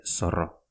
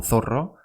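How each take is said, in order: First: "zorro" with an s sound for the z; Basque pronunciation. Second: "zorro" with a Spanish th for z; pronounced as spelt. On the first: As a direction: say "zorro" as "sorro". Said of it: "pero se dice zorro". ("zorro" pronunciado con s, a la vasca) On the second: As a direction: say "zorro" starting like English "thin". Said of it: "Se escribe como zorro". ("zorro" con zeta castellana, como se escribe) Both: Shown as a demonstration.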